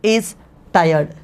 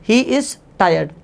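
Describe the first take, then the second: First: Said in the usual way. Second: Slow, every word spaced for the class; slow teacher's model sentence; slow dictation. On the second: Shown as a demonstration. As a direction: spell it out slowly for students to repeat. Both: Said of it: "तो आप कहेंगे he".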